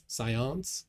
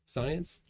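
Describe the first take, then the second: First: Science tried the French way, nasal ending, no s at the start; French pronunciation. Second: Said in the usual way. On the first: Shown as a demonstration. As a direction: try Science like a French word, unsure. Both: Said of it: "is that how you say it in French?".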